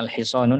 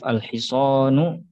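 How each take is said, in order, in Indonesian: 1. Kata ini berakhir dengan bunyi n yang ditambahkan. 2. Kata ini berakhir dengan vokal, tanpa n di akhir. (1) "cara membaca yang keliru" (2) "ada alif al-hisanu ya contohnya"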